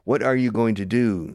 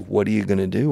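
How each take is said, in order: First: Going to is said in full. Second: Going to is reduced to gonna. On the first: The speaker calls it wrong. "Nobody in the history of the English language has said" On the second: The speaker calls it right. "We say"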